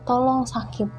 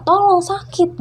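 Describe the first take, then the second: First: Said in the usual way. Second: Much higher, louder angry demand; angry ghost. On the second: Retold or imitated. Ghost girl losing patience with the speaker, loud and angry. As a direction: snap it out in sudden fury. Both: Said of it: "sampai akhirnya dia marah".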